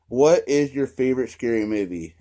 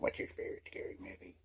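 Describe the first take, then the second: First: It is said in a normal voice. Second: It is said in a creepy Scream voice.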